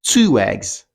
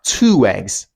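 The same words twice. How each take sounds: First: The two words are joined by a w sound. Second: The same.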